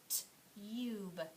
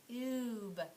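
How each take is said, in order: First: The vowel sounds like 'yoo', the letter name. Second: The vowel sounds like 'oo', without a y. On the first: The speaker calls it wrong. "Let's try the U's name first" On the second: The speaker calls it right. "Let's try the other one"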